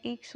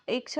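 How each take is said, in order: First: ईक्ष with a long initial ee; corrected long vowel. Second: इक्ष with a short initial i; wrong short vowel. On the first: Teacher correcting the tatsam, ईक्ष with long ee. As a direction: say ईक्ष, opening on a long "ee" before "ksh". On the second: Teacher showing the wrong tatsam, इक्ष with short i. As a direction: say इक्ष, opening on a brief "i" as in "it". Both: Shown as a demonstration. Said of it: "ये इक्ष नहीं होता है".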